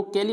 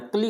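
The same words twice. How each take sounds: First: कैली in two syllables, "kai-lee"; wrong pronunciation. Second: क्ली as one cluster, "klee"; correct pronunciation. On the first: Teacher warns students off the ending, कैली said with a full vowel. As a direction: sound the A in कैली. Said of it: "कैली नहीं बोलना है". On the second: Teacher gives students the right ending, क्ली with silent A. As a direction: run K into L in क्ली, no A. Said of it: "क्ली बोलना है". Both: Shown as a demonstration.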